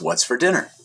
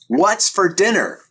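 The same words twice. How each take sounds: First: It is said at a normal volume. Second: It is yelled loudly.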